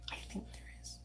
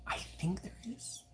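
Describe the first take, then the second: First: Whisper. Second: Soft unvoiced whisper. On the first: Repeated whispered aside. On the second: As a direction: whisper it to yourself. Whispered aside to self. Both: Real, not acted.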